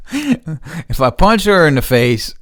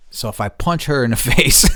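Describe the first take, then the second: First: Higher, louder, slow if I punch her in the face; emphatic. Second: Chuckling through punch her in the face; half-joking, a laugh breaking in. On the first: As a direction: lean hard on it, deadly serious. Repeats it seriously. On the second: Joking about punching neighbour. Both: Real, not acted.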